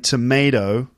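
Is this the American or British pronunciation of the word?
American. It is said with an American pronunciation. "in the USA, they'd probably say tomato"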